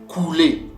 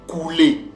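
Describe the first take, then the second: The two takes are said the same way.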